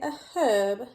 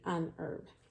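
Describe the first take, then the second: First: It is said with the H sounded, British style. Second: It is said with the H silent, American style.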